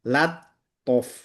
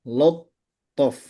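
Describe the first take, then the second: First: The lam and its vowel sound light and thin. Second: The lam and its vowel sound heavy and rounded. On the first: The speaker calls it right. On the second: The speaker calls it wrong. "kadang teman sudah siap-siap di to-nya"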